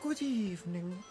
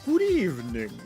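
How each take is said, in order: First: It is said in a put-on British nanny voice. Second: It is said in a put-on vampire count voice. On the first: "No, that sounded more like a like a British nanny" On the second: "makes me think of like vampires. Kind of just like a like a good evening. I am the count"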